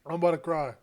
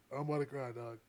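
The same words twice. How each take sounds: First: Said in the usual way. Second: Much softer, lower repeat, deflating; softer, defeated. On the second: Real, not acted. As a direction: let it sink into defeat.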